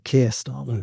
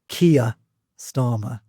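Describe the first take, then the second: First: Keir is said as a single syllable. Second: Keir is stretched into two syllables, Geordie-style. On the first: "I would say" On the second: "she definite two syllables on on his name"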